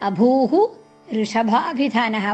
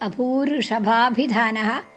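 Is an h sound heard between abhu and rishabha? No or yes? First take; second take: yes; no. First: The words are separated with an h sound between. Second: The words run together with no h between. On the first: The words are split apart. "അഭൂഹു എന്നുള്ളത് വിസർഗവും രേഖ അവിടെ വിസർഗവും അത് കഴിഞ്ഞ് ഋ എന്ന് വരും" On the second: The words are joined by sound combination. "അപ്പോൾ അവിടെ ചെല്ലുമ്പോൾ ഋ എന്ന് വരും"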